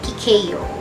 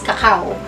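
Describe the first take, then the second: First: It is said the English way. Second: It is said the common Filipino way. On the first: The speaker calls it right. "subalit ang tamang bigkas dyan ay cacao" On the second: The speaker calls it wrong. "Sa Pinas, kakao"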